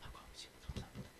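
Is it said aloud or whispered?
whispered. It is said very quietly, almost inaudibly.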